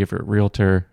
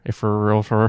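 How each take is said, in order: First: Said in the usual way. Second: "realtor" slurred to "rilfer"; slurring words. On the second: Real, not acted. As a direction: slur "realtor" sloppily. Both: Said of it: "I'm slurring my words".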